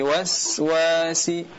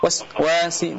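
First: The s sound flows out continuously. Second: The s sound is cut off abruptly. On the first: The speaker calls it right. "tapi waswasi" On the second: The speaker calls it wrong. "tidak dibaca waswasi"

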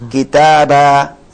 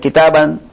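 First: The word ends on a short vowel. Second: The word ends on an n sound. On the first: The speaker calls it right. "Kalau dia tan fathah dibaca harakat satu" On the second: The speaker calls it wrong. "Bukan kitaban"

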